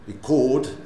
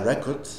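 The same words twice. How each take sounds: First: The stress is on the second syllable. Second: The stress is on the first syllable. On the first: It is the verb meaning to record. "enregistré" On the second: It is the noun meaning a recording. "un enregistrement"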